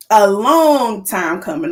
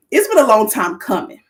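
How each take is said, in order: First: "long" stretched out slowly and stressed; drawn-out emphasis. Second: Said in the usual way. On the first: Real, not acted. Host on a year's wait, "long" drawn out for emphasis. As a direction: lean slowly on "long", drawing it out.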